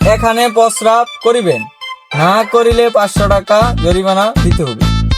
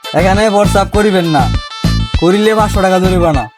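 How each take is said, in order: First: The pause comes before 'না'. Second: The pause comes after 'না'.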